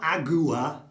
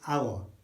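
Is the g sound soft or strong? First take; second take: strong; soft. First: The g sound is strong and hard. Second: The g sound is soft and light. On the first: The speaker calls it wrong. "It's not agua" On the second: The speaker calls it right. "it's our"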